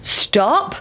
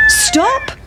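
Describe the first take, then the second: First: Higher called stop; farmer. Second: Very high crowing stop; cockerel. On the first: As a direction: farmer calling to the pancake. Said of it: "said the farmer". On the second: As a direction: crow it like a rooster. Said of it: "said the cock". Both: Acted.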